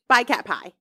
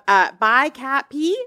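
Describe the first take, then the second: First: The last word is said like 'pie'. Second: The last word is said like 'pee'. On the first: The speaker calls it right. "Is that how you think that is?" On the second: The speaker calls it wrong. "I can't be right"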